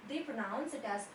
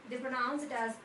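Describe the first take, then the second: Both takes have the same delivery.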